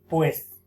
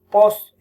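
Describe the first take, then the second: First: The word is said with the ue diphthong. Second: The word is said with a single o vowel. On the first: The speaker calls it right. "en vez de decir" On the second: The speaker calls it wrong. "alteraciones vocálicas"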